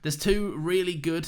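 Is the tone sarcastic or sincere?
sincere. It is read in a plain, sincere tone. The dinosaurs really are good. The speaker calls it wrong. "I think that was a reminder for me to read that sarcastically, but I didn't do it"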